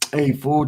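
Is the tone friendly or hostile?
friendly. It sounds casual and friendly. It is a friendly greeting between buddies. "then you understand"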